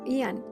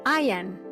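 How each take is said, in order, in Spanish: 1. El nombre se dice a la manera española, como ee-an. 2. El nombre se dice a la manera inglesa, como 'I am'. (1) "en español eh, lo habremos oído como Ian, pero es que no es Ian" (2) "Si lo pronunciamos en inglés es Ian"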